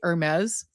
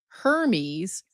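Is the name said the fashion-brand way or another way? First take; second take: brand; another. First: It is pronounced the way the luxury brand is. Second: It is pronounced unlike the luxury brand name. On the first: It names the luxury fashion brand. "which is the brand, the luxury brand" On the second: It names the AI agent. "now this is Hermes, which just sounds wrong"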